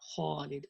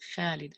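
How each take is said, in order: First: The first sound is heavy and full. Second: The first sound is light and thin. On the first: The speaker calls it right. "So the kha is heavy" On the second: The speaker calls it wrong. "It's not Khalid actually"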